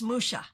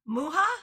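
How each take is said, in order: First: The name is pronounced the French way. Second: The name is pronounced the Czech way. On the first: "If we're saying it the French way" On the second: "if we're saying it the Czech way"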